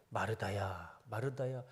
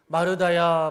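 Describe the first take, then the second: First: Tender calling. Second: Loud calling. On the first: Jesus tenderly calls hurt Martha. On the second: Jesus calls Martha. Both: Acted.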